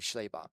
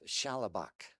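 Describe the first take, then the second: First: No extra vowel, giving two syllables. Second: A vowel is inserted, giving three syllables. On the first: The speaker calls it right. "but it's technically" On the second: The speaker calls it wrong. "mispronunciation of the misspelling of his name"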